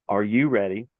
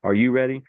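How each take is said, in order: First: Measured referee check, imitated; imitating a referee, unhurried; slowed-down referee call. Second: Brisk imitated referee check; imitating a referee, quicker; quick referee call. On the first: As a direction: ask it more slowly than the real referee. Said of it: "I'm doing it a lot slower". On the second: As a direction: fire it off like the referee starting a fight. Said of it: "a lot slower than he did".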